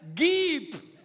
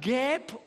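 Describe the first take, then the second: First: The vowel is a short i sound. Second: The vowel is an open e sound. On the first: The speaker calls it right. "Es heißt, gib" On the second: The speaker calls it wrong. "Ist doch falsch"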